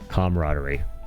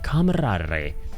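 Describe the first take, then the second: First: The R is plain, not rolled. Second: The R is strongly rolled.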